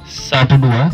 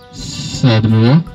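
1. Suaranya terdengar kering, tanpa gema. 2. Suaranya punya efek gema yang kuat. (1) "tidak bergema, hanya matang seperti ini saja" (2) "suara gemanya saya putar, saya tambah seperti ini"

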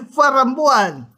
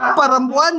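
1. Kata itu diawali dengan bunyi F. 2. Kata itu diawali dengan bunyi P.

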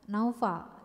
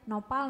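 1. Namanya ada bunyi F dan 'au'. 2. Namanya ada bunyi P dan 'o'. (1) "panggil Naufal pakai huruf F" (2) "Pasti jatuhnya Nopal"

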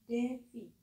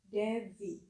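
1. Konsonan di tengah terdengar seperti f. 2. Konsonan di tengah terdengar seperti v yang lebih berat. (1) "Ketika kita baca, konsonan F dan V memiliki bunyi yang sama" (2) "Jadi ada penekanan yang sedikit berat pada konsonan V menjadi V"

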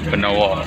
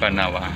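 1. Lafal bahasa Jawa dengan vokal o, bukan a. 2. Lafal bahasa Indonesia baku dengan vokal a terbuka.

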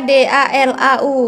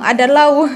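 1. Kelompok huruf dipisahkan oleh jeda. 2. Kelompok huruf disambung tanpa jeda. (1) "dibacanya pisah-pisah" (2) "tadi Makci bacanya langsung"

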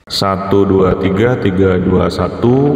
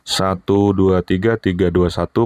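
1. Suaranya diberi efek gema. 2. Suaranya sudah dikurangi noise latar belakangnya, tanpa gema. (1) "Berikut ini menggunakan echo" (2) "dengan mengaktifkan noise reduction"

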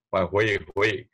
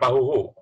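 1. Kata itu terdengar seperti 'pahuehue', dengan vokal meluncur. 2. Kata itu terdengar seperti 'pahuhu', dengan vokal pendek. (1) "dibacanya jadi Pahue Hue" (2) "bukan Pahuhu"

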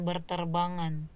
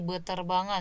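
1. Ada bunyi r setelah suku pertama. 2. Tidak ada bunyi r setelah suku pertama. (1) "bukan berterbangan" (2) "menjadi beterbangan"

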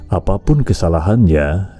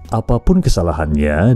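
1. Diucapkan dengan lambat dan nada akhirnya rendah. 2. Diucapkan dengan kecepatan yang lebih cepat, biasa saja.

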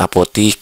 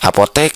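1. Vokal terakhir adalah bunyi 'i'. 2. Vokal terakhir adalah bunyi 'e'. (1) "bukan apotik" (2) "Apotek ternyata ya"

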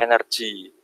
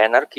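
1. Kata itu diucapkan dengan cara Inggris. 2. Kata itu diucapkan dengan cara Indonesia. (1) "kalau dalam bahasa Inggris jadi energi" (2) "kalau dalam bahasa Indonesia ya energi"

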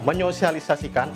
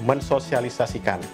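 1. Bunyi s luluh menjadi bunyi ny. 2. Bunyi s tetap dipertahankan setelah bunyi n. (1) "kata menyosialisasikan adalah kata yang benar" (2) "bukan mensosialisasikan"

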